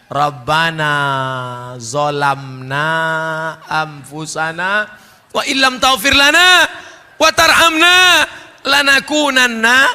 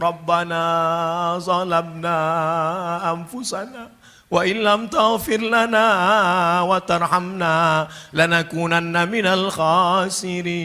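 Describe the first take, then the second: First: It is said loudly, almost shouted. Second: It is said softly and gently.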